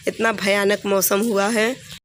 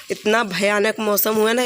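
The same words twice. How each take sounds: First: Slow emphatic repeat. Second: Said in the usual way. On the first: Real, not acted. Vlogger stresses to viewers how bad the storm is, slow and emphatic. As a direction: slowly lean on इतना भयानक मौसम हुआ है, stretching each word.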